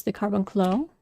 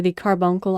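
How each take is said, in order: First: Carbuncle said as car-bun-CLOH, ending in an o sound; first pronunciation. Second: Carbuncle said as CAR-bunk-ul, nasal middle, ending in -kul; second pronunciation. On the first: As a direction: Carbuncle with the last syllable as kloh. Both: Shown as a demonstration. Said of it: "or the Carbuncle".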